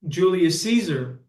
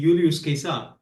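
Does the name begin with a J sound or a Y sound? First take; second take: J sound; Y sound. First: The name begins with a J sound. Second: The name begins with a Y sound. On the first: This is the modern pronunciation. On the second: This is how it was said in ancient times.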